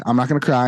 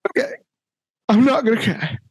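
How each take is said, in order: First: Lower, settled little-brother imitation; calmed down. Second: Mock holding back tears, higher pitch; about to cry. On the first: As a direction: retell it as a kid who has calmed down. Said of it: "I get him calmed down". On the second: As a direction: imitate a little brother trying not to cry. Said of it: "But he was gonna cry".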